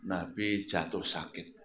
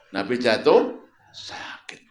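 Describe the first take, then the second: First: Nabi jatuh sakit said low and soft; quiet, grieving delivery; hushed, sorrowful line. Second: Jatuh lifted and rising; louder, lean into jatuh; emphatic rising jatuh; stress on jatuh. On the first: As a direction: drop the voice with grief. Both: Shown as a demonstration.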